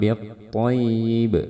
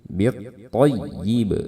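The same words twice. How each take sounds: First: The doubled y is said plainly without extra pressure. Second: The doubled y is pressed with slightly raised pitch. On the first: The speaker calls it wrong. "Jangan biat toyib ya" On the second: The speaker calls it right. "kita akan tambah tekanan. Jadi suaranya naikkan sedikit"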